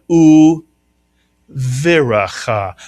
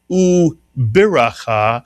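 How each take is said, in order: First: The consonant after 'u' is a v sound. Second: The consonant after 'u' is a b sound. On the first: The speaker calls it right. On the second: The speaker calls it wrong. "the pronunciation of this word is not"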